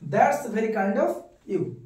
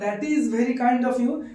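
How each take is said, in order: First: 'That is' is shortened into one syllable. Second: 'That is' is said as two full words. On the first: The speaker calls it right. "দ্রুত বলার জন্য কথ্য ভাষা হচ্ছে দ্যাটস" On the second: The speaker calls it wrong. "দ্যাট ইজ বললে ওটা শুনতে ভালো লাগবে না"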